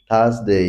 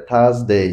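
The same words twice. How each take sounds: No difference in how they are said.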